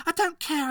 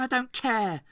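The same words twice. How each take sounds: First: Much higher, louder yell of I don't care; furious boy shouting "I don't care"; shouted. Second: Higher, louder repeat of I don't care; repeated angry shout "I don't care"; shouted again. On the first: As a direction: scream "I don't care" at the doctor. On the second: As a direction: throw "I don't care" back at him. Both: Acted. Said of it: "shouted Boyle".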